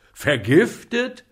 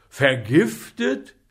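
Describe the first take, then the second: First: Vergiftet higher and louder still; apothecary's panic rising; horrified repeat. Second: Loud, slow rising Vergiftet; shocked apothecary asking; horrified question. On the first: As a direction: echo Vergiftet, more alarmed. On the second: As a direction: stretch Vergiftet out in disbelief. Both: A narrator's reading.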